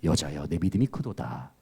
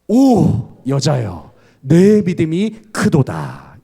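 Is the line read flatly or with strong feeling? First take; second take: flatly; strong feeling. First: It is read flatly, without feeling. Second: It is read with strong, exclaiming feeling.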